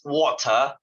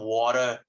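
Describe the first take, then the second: First: It is said in a British accent. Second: It is said in an American accent. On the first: The speaker calls it right. "it's water" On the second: The speaker calls it wrong. "not water. What the fuck is water?"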